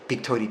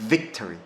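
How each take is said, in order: First: The word begins with a B sound. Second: The word begins with a V sound. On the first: The speaker calls it wrong. "우리나라식은 전부 B 사운드에 가깝죠" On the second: The speaker calls it right. "영어 사운드는 victory입니다"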